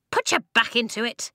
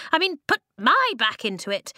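First: High squeak, urging them on; squeaky order. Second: High, louder squeak punching "my"; squeaky stress on "my". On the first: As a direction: squeak it as a brisk command. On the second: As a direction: correct yourself, hitting "my" hard. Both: A narrator's reading. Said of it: "the rocks squeaked".

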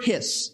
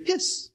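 First: Said in the usual way. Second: "Hiss" said as the noise it means; sound-imitating hiss. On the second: Shown as a demonstration. Preacher showing what the word means, "Hiss" as a hissing noise. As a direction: let the s of "Hiss" sizzle. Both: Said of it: "sound like their meaning".

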